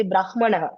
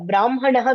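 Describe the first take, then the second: First: "brahmanaha" read in written letter order; wrong h-first pronunciation. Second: "brahmanaha" with the nasal sounded first; correct m-first pronunciation. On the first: Teacher showing what not to say, "brahmanaha" with h ahead of m. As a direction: say "brahmanaha" with h before m, brah-ma-na-ha. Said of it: "we don't say brahmanaha". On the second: Teacher giving the exception, "brahmanaha" said m first, then h. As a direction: say "brahmanaha" with m before h, bram-ha-na-ha. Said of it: "brahmanaha we say". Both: Shown as a demonstration.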